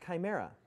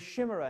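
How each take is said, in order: First: The word begins with a k sound. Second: The word begins with an sh sound. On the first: The speaker calls it right. "That word is pronounced chimera" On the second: The speaker calls it wrong. "pronouncing a word wrong"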